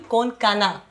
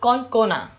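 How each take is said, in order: First: The middle vowel sounds like 'ah'. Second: The middle vowel sounds like 'oh'. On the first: This is how other people say the name. The speaker calls it wrong. "And people call you Konkana" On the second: This is how the name is really said. The speaker calls it right. "Your name is Konkona"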